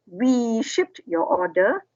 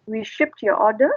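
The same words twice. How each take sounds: First: "We" leaned on hard, whole line slow and deliberate; stress on WE. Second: Said in the usual way. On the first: Shown as a demonstration. Teacher showing students the writer-centred wording, stressing "We". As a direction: slowly punch the word "We" before the rest. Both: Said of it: "stressing on the we".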